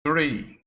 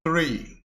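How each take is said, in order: First: Three repetido com a língua entre os dentes; Three, th soprado com a ponta da língua nos dentes; th sound. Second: Língua entre os dentes no three; three com a ponta da língua entre os dentes; th sound. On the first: (Three com a língua entre os dentes) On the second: (three com a língua entre os dentes) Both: Shown as a demonstration. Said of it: "quando você pronunciar três, vai ficar three".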